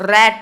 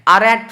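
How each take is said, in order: First: It starts directly with an 'r' sound. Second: It starts with the letter name 'ar'. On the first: The speaker calls it right. "रैट जिसमें कि र भी आता है" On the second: The speaker calls it wrong. "आरैट नहीं पढ़ते हो"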